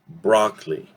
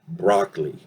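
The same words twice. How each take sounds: First: The middle vowel is a reduced 'uh' sound. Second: The middle vowel is a reduced 'uh' sound.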